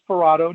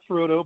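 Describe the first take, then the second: First: The middle vowel sounds like 'ah'. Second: The middle vowel sounds like 'uh'. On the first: The speaker calls it right. "It is Ferrado" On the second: The speaker calls it wrong. "not Ferrudo"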